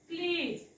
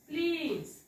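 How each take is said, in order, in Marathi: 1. शेवटी z हा व्यंजनाचा आवाज येतो. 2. शेवटी z हा व्यंजनाचा आवाज येतो.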